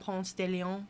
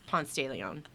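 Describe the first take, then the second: First: The name is pronounced in a French way. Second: The name is pronounced in a Spanish way. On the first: The speaker calls it wrong. "No, that's not how you say it" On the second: The speaker calls it right. "because that's not French, it's Spanish"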